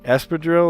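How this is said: The word has a Spanish pronunciation. This is how Spanish speakers say it. "That's how you say it"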